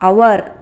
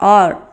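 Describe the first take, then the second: First: The word sounds like 'hour', with two vowels. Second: The word sounds like 'or', with one vowel. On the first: The speaker sounds like a beginner still learning. The speaker calls it wrong. "O U R our ಅನ್ನೋ ಬದಲು" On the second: The speaker sounds fluent in English. The speaker calls it right. "O U R or ಅಂತ standard ಆಗಿ"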